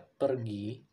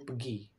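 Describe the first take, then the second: First: It is said with an Indonesian accent. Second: It is said with a Malaysian accent. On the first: "di Indonesia pergi" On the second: "kalau di Malaysia itu pergi"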